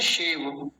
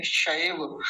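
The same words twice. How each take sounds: First: शेव like English "shave"; plain e vowel. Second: शैव with a gliding "sha-ee" diphthong; ai vowel. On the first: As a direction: say शेव with a simple long e, no glide. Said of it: "वो वाला शेव नहीं है". (शेव, सीधा ए स्वर) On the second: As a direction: open शैव out into a-i before the v. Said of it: "अयकार की मात्रा है". (शैव, अय की ध्वनि के साथ) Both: Shown as a demonstration.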